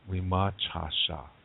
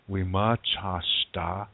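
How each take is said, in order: First: It is said in the Lakota form. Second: It is said in the D dialect form.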